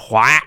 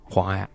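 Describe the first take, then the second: First: It is called loudly, as if from far away. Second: It is said softly, as if close by.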